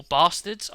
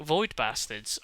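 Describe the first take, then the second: First: Bastards with a long broad English a, as in father; English pronunciation. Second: Bastards with a flat American a, as in cat; American pronunciation. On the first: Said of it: "It's meant to be very English". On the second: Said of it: "I don't know how you want me to pronounce that". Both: Shown as a demonstration.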